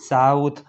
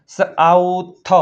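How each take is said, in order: First: Said in the usual way. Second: સાઉથ drawn out in parts, સ-આઉ-થ; teacher slowly sounding out સાઉથ; sounded out. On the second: Shown as a demonstration. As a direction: stretch સાઉથ slowly on a held note. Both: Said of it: "તેનો ઉચ્ચાર આવ થાય છે".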